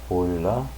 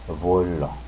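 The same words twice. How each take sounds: Both takes have the same delivery.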